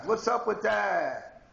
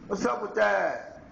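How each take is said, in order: First: Slow rising challenge on "up"; incredulous slow "What's up with that?". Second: Slightly quicker "What's up with that?" with a falling end; insistent repeat; what's up with that, again. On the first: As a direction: drag out "What's up with that?" high and slow. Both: Shown as a demonstration. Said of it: "repeated rhetorical question".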